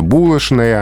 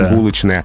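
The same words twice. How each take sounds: First: The consonant before n sounds like sh. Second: The consonant before n sounds like ch. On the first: This is the old Moscow way of saying it. "знаменитая булочная" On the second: This is the spelling-based way of saying it. "а не булочная"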